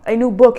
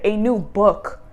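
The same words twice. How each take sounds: First: "A new book." repeated much louder, with "book" punched; emphatic repeat. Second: Said in the usual way. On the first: Shown as a demonstration. Reader repeats "A new book." louder to drive it home. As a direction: hit "book" hard on the second go.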